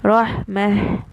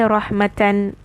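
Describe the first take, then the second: First: The word ends with a silent h sound. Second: The word ends with a full -atan syllable. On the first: The reader is pausing on the word. "I'm going to say rahmah with this has sukoon" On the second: The reader continues without pausing. "when I'm going to continue, I will say rahmatan"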